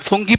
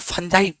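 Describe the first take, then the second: First: It has an oo vowel and ends gee. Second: It has an uh vowel and ends jai. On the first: Some people say it this way. "कोई फुंगी पड़ता है" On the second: This is how we say it. "अपन फंजाई पड़ता है"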